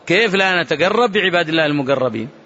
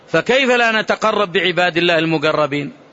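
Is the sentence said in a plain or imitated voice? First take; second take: imitated; plain. First: It is said in an imitated, put-on voice. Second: It is said in the speaker's plain voice.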